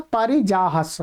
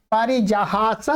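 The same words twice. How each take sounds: First: पारिजाहस said with a short "ह" in the middle, a touch lower; short a form. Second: पारिजाहास said with a long drawn "हा" in the middle; पारिजाहास with a clear long aa in "हा"; long a form. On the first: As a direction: keep the middle of पारिजाहस short, "जाहस" with a clipped a. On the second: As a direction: stretch the middle vowel of पारिजाहास, "जाहास" with a full long aa. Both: Shown as a demonstration. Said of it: "उत्तम पुरुष के एक वचन में दो रूप बनते हैं".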